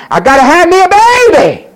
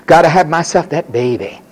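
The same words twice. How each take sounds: First: High, loud mock yell; obsessive demand. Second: Said in the usual way. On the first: Preacher as Hannah demanding a child, obsessive yell. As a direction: cry it out as a desperate demand. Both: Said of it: "prayed on this one thing".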